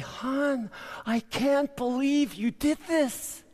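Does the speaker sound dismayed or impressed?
impressed. It is said in an impressed, delighted tone. The work was done well. "she's going to say"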